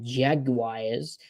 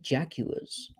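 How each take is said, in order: First: The word is pronounced the standard way. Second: The word is pronounced more phonetically.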